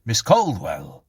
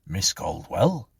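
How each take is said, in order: First: Louder, slow call with a falling end; insistent call. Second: Slow, questioning call with a rising end; gentle query. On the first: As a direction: call her name firmly to rouse her. Policeman calls her again, firmer. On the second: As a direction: check on her carefully. Policeman gently rouses screaming Clara. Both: A narrator's reading.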